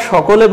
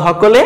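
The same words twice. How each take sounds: First: Said in the usual way. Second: "হকলে" with an initial h for sh; Chittagong pronunciation. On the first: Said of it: "আমরা সকলে বললে". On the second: Shown as a demonstration. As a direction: say "হকলে" with h at the front, Chittagong style. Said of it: "তারা বলে হকলে".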